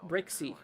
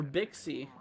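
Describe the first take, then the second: First: Brixie, with a clear br sound; Brixie, stressing the r after b; corrected name. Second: Bixie, said without the r; wrong name. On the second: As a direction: Bixie with a plain b-i start. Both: Real, not acted. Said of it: "Sorry, Brixie, not Bixie".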